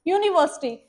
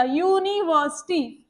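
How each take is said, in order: First: Said in the usual way. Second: university said slowly, opening on a clear yu sound; slow teaching model of university; slow careful word. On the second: Shown as a demonstration. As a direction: draw out university for the class, starting with yu. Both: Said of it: "ये चीज को आप समझना".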